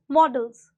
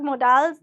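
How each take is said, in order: First: The word is said plainly, without added styling. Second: The word is said with an exaggerated put-on accent. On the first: The speaker calls it right. "the plain simple pronunciation is models" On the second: The speaker calls it wrong. "definitely not models the way it is pronounced here in India"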